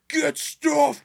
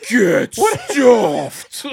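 First: It is shouted with more fury. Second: It is shouted with the most fury. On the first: "repeated several times with increasing fury" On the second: "repeated several times with increasing fury"

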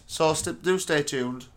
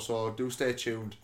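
First: It is said very loudly. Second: It is said more quietly. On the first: The speaker calls it wrong. "you blew everyone's tits off" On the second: The speaker calls it right. "Do you want to say that a bit quieter?"

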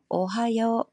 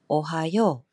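First: It uses the standard Tokyo pitch pattern. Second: It uses the Kansai pitch pattern. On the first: "표준어 오하요" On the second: "관사이 쪽에서는 오하요"

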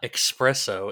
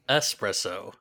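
First: The word begins with an 'ex' sound. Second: The word begins with an 'es' sound. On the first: The speaker calls it wrong. "It is not espresso" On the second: The speaker calls it right. "It is espresso"

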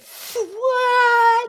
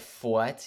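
First: The word is long and drawn out. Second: The word is said short and clipped.

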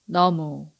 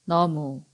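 No difference in how they are said.

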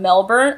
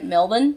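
First: It is said with an American-style pronunciation. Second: It is said with an Australian-style pronunciation. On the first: The speaker calls it wrong. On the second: The speaker calls it right.

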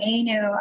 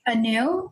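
First: The name is said in a non-traditional pronunciation. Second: The name is said in the traditional Indian pronunciation. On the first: This is the form the speaker prefers. "it's actually not pronounced the traditional Indian way" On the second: This is the form the speaker dislikes. "The traditional Indian way is supposed to be Anu"

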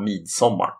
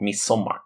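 First: It is said carefully, with more weight given. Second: It is said casually, as in everyday speech. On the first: This is the strictly correct form. "ska man vara helt korrekt måste det väl ändå vara midsommar" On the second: This is how people say it in everyday talk. "man säger ju egentligen i talspråk midsommar"

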